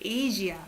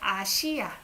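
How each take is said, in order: First: The middle consonant is a voiced zh sound. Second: The middle consonant is a plain s sound. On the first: "In English, it sounds like G" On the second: "We use S here"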